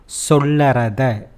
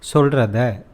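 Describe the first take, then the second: First: The word is said in full with an extra vowel. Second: The word is shortened with the vowel dropped. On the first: The speaker calls it wrong. "It is not sollarada" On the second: The speaker calls it right. "instead solrada"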